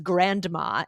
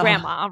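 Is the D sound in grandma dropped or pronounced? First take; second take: pronounced; dropped. First: The D sound is clearly pronounced. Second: The D sound is left out. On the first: The speaker calls it wrong. "nobody says grandma" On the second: The speaker calls it right. "we dropped the D"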